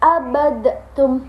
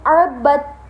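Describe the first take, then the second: First: The d is bounced separately before the t. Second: The d merges straight into the following t. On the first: The speaker calls it wrong. "nggak boleh" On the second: The speaker calls it right. "langsung masuk pada huruf ta"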